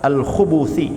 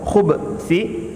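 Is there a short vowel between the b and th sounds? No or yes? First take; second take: yes; no. First: A short u vowel separates b and th. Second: The b runs straight into th, no vowel. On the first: "dengan dhammah" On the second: "Dengan sukun"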